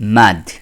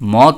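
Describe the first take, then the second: First: The vowel is an open 'a' sound. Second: The vowel is a short 'o' sound. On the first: The speaker calls it right. "শব্দটা হবে কি মাদ" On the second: The speaker calls it wrong. "কিন্তু শব্দটা মদ হবে না"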